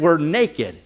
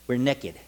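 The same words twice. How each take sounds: First: It is said in a standard accent. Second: It is said in a Southern accent.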